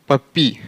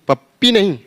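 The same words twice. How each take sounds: First: "पप्पी" with one short p; "पप्पी" the right way, single p. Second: "पप्पी" with a held double p; "पप्पी" said wrongly, double p. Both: Shown as a demonstration.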